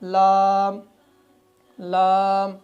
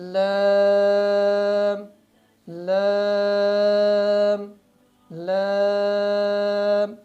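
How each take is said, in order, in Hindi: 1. स्वर पर मुंह ज़रूरत से ज़्यादा खुल जाता है। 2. स्वर पर मुंह संकरा ही रहता है। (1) "मुंह को ज़्यादा खोल देते हैं" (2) "तो इस गलती से हमने बचना है। कैसे?"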